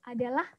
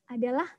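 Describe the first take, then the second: No difference in how they are said.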